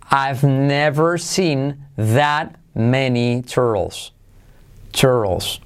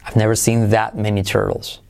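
First: Very slow, word-by-word teaching delivery; slow model sentence. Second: "that many" joined, the T of "that" barely sounded, low; unreleased T. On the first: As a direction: spell the sentence out at half speed for learners. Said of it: "La frase que os pongo de ejemplo es". (frase modelo, muy lenta, palabra por palabra) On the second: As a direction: run the sentence through low and connected, swallowing the T in "that". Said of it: "esa T de that casi no se pronuncia". ("that" casi sin T, frase seguida) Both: Shown as a demonstration.

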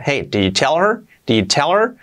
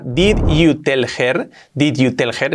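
First: "did you tell her" run together, h of "her" dropped; well pronounced, linked. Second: Slow spelled-out "Did you tell her", every word separate; word by word, as written. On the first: Teacher modelling good English for learners, linked and fluent. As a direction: glide through "did you tell her" as one block, rising at the end. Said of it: "Pronunciado bien sería". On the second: Teacher reading the phrase as written, slow and word by word. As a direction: say "Did you tell her" with Spanish letter sounds, rasped h in "her". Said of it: "escrito así".

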